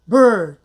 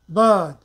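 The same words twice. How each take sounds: First: The r sound is pronounced after the vowel. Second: The vowel is long with no r sound. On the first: "American English" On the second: "British English"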